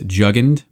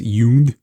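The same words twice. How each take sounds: First: The word is said with English-style sounds. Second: The word is said with German sounds. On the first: The speaker calls it wrong. "Last time we pronounced Jugend as Jugend" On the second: The speaker calls it right. "the actual German pronunciation is Jugend"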